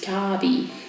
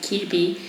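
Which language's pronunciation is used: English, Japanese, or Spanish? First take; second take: Japanese; Spanish. First: The name is said with a Japanese pronunciation. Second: The name is said with a Spanish pronunciation. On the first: "in Japanese is Kabi" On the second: "in Spanish we pronounce it Kirby"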